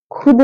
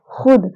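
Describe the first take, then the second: First: Said in the usual way. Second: खुद begun with a scraped x sound; Persian kh. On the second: Shown as a demonstration. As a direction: say खुद with throat friction, not aspirated k. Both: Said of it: "खुद नहीं कहेंगे".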